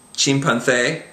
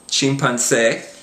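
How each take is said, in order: First: The c before é is a th sound. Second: The c before é is an s sound. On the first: This is the pronunciation used in most of Spain. "pronounced with a T H kind of a sound" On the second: This is the Latin American pronunciation. "pronounced like an S"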